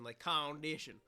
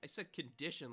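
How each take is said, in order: First: Condition said louder with weight; stress on condition. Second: Said in the usual way. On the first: Shown as a demonstration. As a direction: lean hard on condition.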